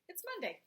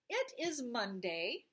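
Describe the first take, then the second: First: It is shortened into one syllable, it's. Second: It is said as two separate words. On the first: "I usually say it's" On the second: "Instead of saying it is"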